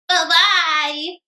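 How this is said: It is said in a high, squeaky voice.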